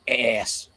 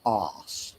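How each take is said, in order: First: It is said with an American accent. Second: It is said with a British accent. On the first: "Americans say bottom, ... They say ass" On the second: "We say ass"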